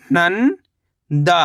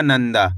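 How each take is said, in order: First: नंदा as long rising "nan", pause, "daa"; split syllables. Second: Said in the usual way. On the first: Shown as a demonstration. Teacher breaking down नंदा for learners, split syllables. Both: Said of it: "तो मिलके बन जाएगा".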